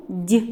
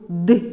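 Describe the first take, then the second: First: Д as palatalized "d'", like "dyi"; name the soft sound Д; soft consonant. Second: Д as hard "d", like "dy"; name the hard sound Д; hard consonant. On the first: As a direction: end on a softened Д, tongue raised. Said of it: "м'який приголосний звук". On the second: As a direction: end on a firm, unpalatalized Д. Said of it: "вимовляємо твердий". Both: Shown as a demonstration.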